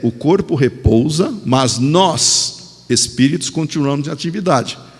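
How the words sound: The word nós carries strong emphasis.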